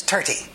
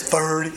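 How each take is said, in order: First: Irish "thirty" said as "tirty", a hard T with no th sound; "thirty" in an Irish accent, starting with a plain T. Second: Said in the usual way. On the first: Shown as a demonstration. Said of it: "If you're in Ireland". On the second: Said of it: "Here it's thirty".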